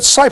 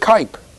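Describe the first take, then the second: First: The word begins with an s sound. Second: The word begins with a k sound. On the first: "how come you all said Sipe?" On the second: "How come nobody said Kipe?"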